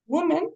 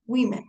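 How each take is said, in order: First: "Women" said as singular woman, WUU-men; rounded oo opening on "Women"; singular pronunciation. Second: "women" said WIH-men; plural pronunciation. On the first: Teacher contrasting singular with plural, "Women" as WUU-men. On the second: Teacher contrasting plural with singular, "women" as WIH-men. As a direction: open "women" with a short i. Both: Shown as a demonstration. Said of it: "lo que cambia en realidad es la O".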